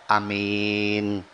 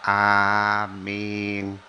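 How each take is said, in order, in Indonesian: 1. Vokal pertamanya pendek. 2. Vokal pertamanya panjang. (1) "Di Mekah loh" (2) "Padahal yang betul"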